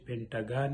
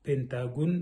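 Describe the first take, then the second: First: The last syllable has an open a vowel. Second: The last syllable has a rounded o vowel. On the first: This follows the original English pronunciation. The speaker calls it right. "موږ ته پکار ده چې پنټاګان یې ولیکو او ویې وایو" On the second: This is the Persian-influenced form. The speaker calls it wrong. "فارسي کې دوی پنتاګون وایي او لیکي"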